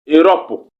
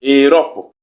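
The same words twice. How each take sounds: First: "Europe" said as /erɔp/, each vowel held clear; demo word pronounced. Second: Said in the usual way. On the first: Shown as a demonstration. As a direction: model "Europe" with its tense and lax vowels. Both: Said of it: "voyelles tendues et les voyelles relâchées cohabitent".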